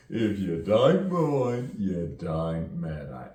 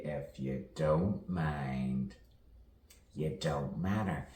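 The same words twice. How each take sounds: First: Loud, high, drawn-out mock London accent; hammed-up London accent, slow and loud. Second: Slow "don't mind" with full, rounded "don't"; unhurried "if you don't mind", at an ordinary level; measured saying. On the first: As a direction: stretch it out in exaggerated put-on London vowels. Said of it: "a little bit like, you know, from London". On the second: Pretend. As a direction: recite "you don't matter" slowly as a common saying. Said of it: "As we all say".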